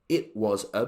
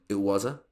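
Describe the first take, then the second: First: Each word is said fully and separately. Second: The words are squashed together and reduced.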